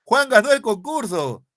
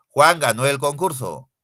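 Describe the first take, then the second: First: Much higher, louder and slow exclamation; exclaiming. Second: Said in the usual way. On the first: Shown as a demonstration. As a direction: marvel at the news. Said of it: "indican admiración". (exclamación admirada, aguda y fuerte) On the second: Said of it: "Es una oración enunciativa".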